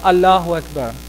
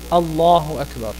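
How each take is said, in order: First: The L in Allah is light and thin. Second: The L in Allah is heavy and full. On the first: The speaker calls it wrong. "young kids... would pronounce this" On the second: The speaker calls it right. "instead of Allahu Akbar"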